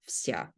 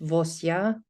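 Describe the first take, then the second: First: The v and s are said together. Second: A vowel is sounded between v and s. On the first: The speaker calls it right. "We just read it vsya" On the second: The speaker calls it wrong. "we don't read it vosya or anything like that"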